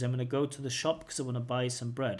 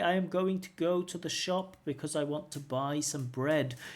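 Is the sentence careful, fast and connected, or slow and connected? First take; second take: fast connected; careful. First: The words run together quickly without breaks. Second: Each word is said fully and separately. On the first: "the fully connected speech is" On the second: "careful speakers. Yeah, it's okay"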